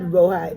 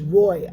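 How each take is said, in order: First: The name is said with two syllables. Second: The name is said with one syllable. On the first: The speaker calls it wrong. "Not Rohi" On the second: The speaker calls it right. "it's Roy"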